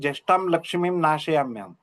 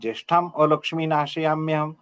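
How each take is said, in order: First: The 'a' before 'lakshmim' is merged away. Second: The 'a' before 'lakshmi' is clearly pronounced. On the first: It sounds like prosperity itself is destroyed. The speaker calls it wrong. "लक्ष्मीम नाशयाम्यहम असा उच्चार होऊ शकतो" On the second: Misfortune is what gets destroyed. The speaker calls it right. "त्यामुळे म्हणताना"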